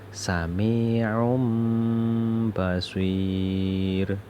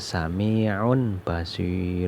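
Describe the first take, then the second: First: An m sound comes before the b. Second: An n sound comes before the b. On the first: The speaker calls it right. "Harus dibaca sami'um basir" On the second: The speaker calls it wrong. "tidak boleh dibaca sami'un basir"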